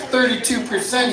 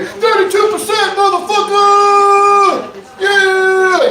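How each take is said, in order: First: Said in the usual way. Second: High, drawn-out rap hype-man shout; backing someone up at full volume; emphatic hype man. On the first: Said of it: "you got your hype man behind you". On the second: Acted. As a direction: holler it out to hype the crowd, stretching the last words. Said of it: "ready to emphatically back you up".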